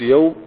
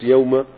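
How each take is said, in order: First: The word ends with a short u vowel. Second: The word ends with a short a vowel. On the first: The word is the predicate of the sentence. "لو قلت يوم على إنها خبر مرفوع" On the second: The word is an adverb of time. "لو قلت يوم على إنها ظرف"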